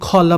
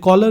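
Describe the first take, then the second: First: The first k sound is aspirated. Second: The first k sound is plain. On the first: "British English में ... ये खॉला पढ़ाता" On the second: "ये कॉलर नहीं पढ़ाता"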